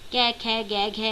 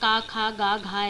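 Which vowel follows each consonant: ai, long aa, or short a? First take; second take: ai; long aa. First: Each consonant ends in an 'ai' vowel sound. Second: Each consonant ends in a long 'aa' vowel. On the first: "इसे ज़्यादातर लोग कै या का पढ़ते हैं। ... ये बिल्कुल गलत उच्चारण है" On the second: "या का खा गा घा ऐसे भी बोलते हैं। ये बहुत गलत है"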